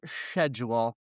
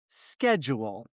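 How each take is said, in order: First: Schedule said with sh, SHED-jool. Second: Schedule said with sk, SKED-jool; schedule with a hard k sound. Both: Shown as a demonstration. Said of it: "not schedule".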